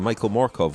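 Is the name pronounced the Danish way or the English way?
English. Both names are pronounced in an English way.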